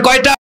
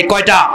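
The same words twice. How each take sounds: First: Higher, pushed call to the crowd; shouted question. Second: Said in the usual way. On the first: Shown as a demonstration. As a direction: shout it to get them shouting back. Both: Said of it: "চিল্লা বলেন".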